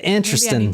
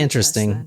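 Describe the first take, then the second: First: It is said with a country twang. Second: It is said in a plain, standard accent. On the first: The speaker is picking up the local accent. "The the countryness is is flowing from us because she said interesting" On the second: This is the speaker's usual way of saying it. "instead of"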